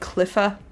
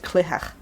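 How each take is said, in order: First: The middle consonant is an f sound. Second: The middle consonant is a throaty sound. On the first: "you could say it like cliffa" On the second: "like throat noise"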